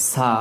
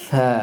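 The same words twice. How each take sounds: First: সা said as a plain Bengali s; wrong plain s. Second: সা with tongue tip on the upper front teeth as th; Arabic tha. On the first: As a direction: say সা with an ordinary s, tongue behind the teeth. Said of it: "তাহলে এটার উচ্চারণ শুদ্ধ হয়নি". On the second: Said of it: "জিহ্বাটাকে ... লাগাতে হবে". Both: Shown as a demonstration.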